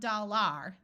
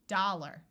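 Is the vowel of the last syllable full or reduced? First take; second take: full; reduced. First: The last syllable has a full ar vowel. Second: The last syllable is reduced to a schwa. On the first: The speaker calls it wrong. "not dollar" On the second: The speaker calls it right. "when these A Rs schwa, it sounds more like an E R"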